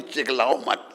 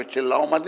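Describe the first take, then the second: First: "चिल्लाओ" turned into chiklao with an added k; imitated mispronunciation. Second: Said in the usual way. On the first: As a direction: copy the devotee's slip, chiklao for "चिल्लाओ". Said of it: "चिल्लाने को चिल्लाओ मत नहीं". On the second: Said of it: "चिल्लाओ मत नहीं".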